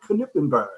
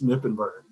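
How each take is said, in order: First: The name begins with a pronounced K sound. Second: The name begins with an N sound, K silent. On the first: This is how people in Germany say it. "my name said with a K" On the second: This is how it is said everywhere else. "The silent K"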